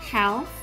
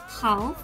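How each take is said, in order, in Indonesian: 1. Aksen American, dengan vokal a yang datar di depan. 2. Aksen British, dengan vokal a yang terbuka. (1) "Sedangkan untuk American" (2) "dibaca dengan aksen British"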